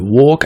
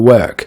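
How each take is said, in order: First: The vowel sounds like the vowel in war. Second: The vowel sounds like the vowel in word. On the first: The speaker calls it wrong. "il passe de « work »" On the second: The speaker calls it right. "à « work »... bien meilleure"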